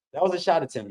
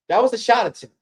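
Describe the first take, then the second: First: Said in the usual way. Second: Higher, louder, punching was; incredulous emphasis. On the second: Real, not acted. Streamer mocking the shot to chat, emphatic disbelief. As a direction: stress was, pitched up in disbelief.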